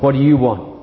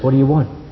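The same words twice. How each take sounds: First: The question sounds rough and gruff. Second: The question sounds gentle and earnest. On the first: An irritated challenge to someone unwelcome. The speaker calls it wrong. "any sense of roughness or gruffness" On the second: A sincere invitation to say what one seeks. The speaker calls it right. "a most profound and deep question"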